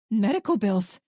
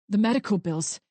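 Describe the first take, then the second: First: Incredulous echo. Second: Said in the usual way. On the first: Acted. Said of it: "she echoed".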